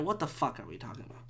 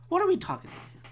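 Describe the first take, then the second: First: Low, soft, hurried mutter; muttered disbelief. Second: High-pitched exasperated question; incredulous high pitch. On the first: Podcaster questioning his own rant, low hurried mutter. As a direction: mutter it quickly under your breath. Ranting about the yelling stranger. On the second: Podcaster questioning his own rant, high incredulous voice. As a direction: pitch it way up in disbelief. Same question again, exclaimed. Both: Real, not acted.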